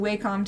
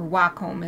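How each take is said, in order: First: Wacom is said the speaker's everyday way. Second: Wacom is said the official way.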